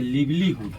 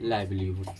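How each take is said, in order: First: The first vowel is a short 'i' sound. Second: The first vowel is a long 'eye' sound. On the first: The speaker calls it wrong. "लिखा हुआ अगर ऐसा देखिएगा तो लिवलीहुड, लेकिन वो हो जाएगा गड़बड़" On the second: The speaker calls it right. "सबका प्रोनाउंसिएशन क्या बोला जाता है? लाइवलीहुड"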